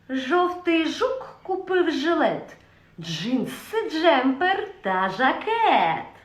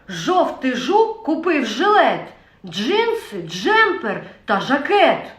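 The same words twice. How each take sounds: First: It is said in a sly voice. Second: It is said in an angry voice. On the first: "Наступна емоція – хитрість" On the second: "перша емоція – це гнів"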